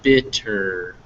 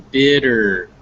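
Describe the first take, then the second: First: The middle consonant is a hard, voiceless T. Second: The middle consonant is a soft, voiced D. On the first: The speaker calls it wrong. "not bitter" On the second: The speaker calls it right. "make sure that you never stop making those vibrations. So bitter"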